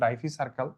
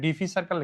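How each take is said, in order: First: The first syllable is said like 'die'. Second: The first syllable is said like 'dee'. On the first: The speaker calls it right. "Actual উচ্চারণ ডাইফি circle" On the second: The speaker calls it wrong. "এখানে ডিফি circle লিখছি"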